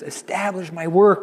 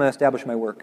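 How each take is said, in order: First: It is said in a tearful, crying voice. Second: It is said in a flat, bored way. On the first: "And he says it with tears" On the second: "He doesn't say it in kind of a boring"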